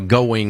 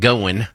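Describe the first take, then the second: First: It is said in a neutral broadcast accent. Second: It is said in a Kentucky country accent.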